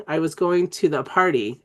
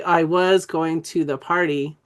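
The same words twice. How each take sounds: First: Said in the usual way. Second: Slow, "was" stretched out in "I was going to the party"; deliberate word by word. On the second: Shown as a demonstration. Teacher showing trainees how a sentence sounds, slow and deliberate. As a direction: spell out the sentence slowly, each function word given weight. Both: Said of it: "It's actually".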